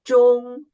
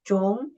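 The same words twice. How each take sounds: First: The pitch stays high and level throughout. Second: The pitch rises from middle to high. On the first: "first tone is the highest tone, and flight" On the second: "the second tone, raise up"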